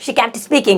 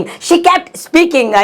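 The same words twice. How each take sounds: First: Said in the usual way. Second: "she kept speaking" stretched extremely slowly and higher; slow, each syllable long; slow teaching repeat. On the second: Shown as a demonstration. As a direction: dictate it very slowly. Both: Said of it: "slow repeat for learners".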